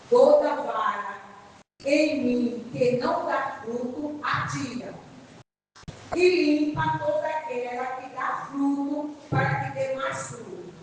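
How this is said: There is a clear pause after "atira".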